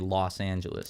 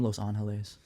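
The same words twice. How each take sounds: First: The name is pronounced with American English sounds. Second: The name is pronounced with Spanish sounds. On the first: The speaker avoids seeming pretentious. The speaker calls it right. "out of fear of being an asshole, I'll say" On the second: The speaker seems pretentious. The speaker calls it wrong. "how goofy you'd look"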